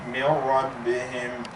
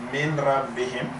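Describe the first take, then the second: First: The n sound merges fully into the r. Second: The n sound is heard before the r. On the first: The speaker calls it right. "the noon goes completely into the ra" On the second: The speaker calls it wrong. "That's a mistake because I did not do the idgham"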